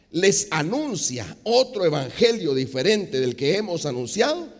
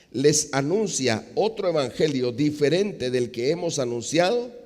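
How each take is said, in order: Both takes have the same delivery.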